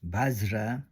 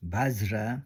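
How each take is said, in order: First: It is said with a v and a j sound. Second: The same.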